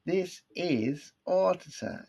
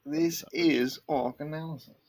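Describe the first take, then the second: First: High, slow mock-British announcement; mock British accent. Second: High put-on British announcer; mock British accent. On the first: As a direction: stretch it out in a put-on British accent. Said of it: "like, an English accent". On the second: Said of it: "say it with a British accent".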